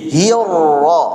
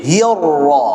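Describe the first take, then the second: The two takes are said the same way.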